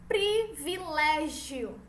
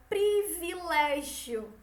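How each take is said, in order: No difference in how they are said.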